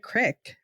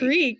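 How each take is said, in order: First: Said with an Eastern Pennsylvania short vowel. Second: Said with a standard long ee vowel.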